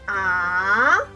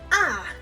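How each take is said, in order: First: The pitch rises and is held long. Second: The pitch falls quickly and is short. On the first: "We say this up and long" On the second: "tones go down and short"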